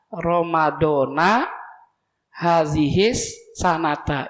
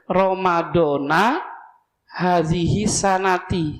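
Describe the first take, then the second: First: Both words end with an a vowel. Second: The first ends in a, the last in i. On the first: The speaker calls it right. "dua-duanya fathah" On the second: The speaker calls it wrong. "Yang salah yang ini"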